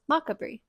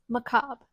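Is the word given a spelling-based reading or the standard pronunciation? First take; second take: spelling-based; standard. First: It is given a spelling-based reading. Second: It is given the standard pronunciation. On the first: The speaker calls it wrong. "I thought this word was" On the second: The speaker calls it right.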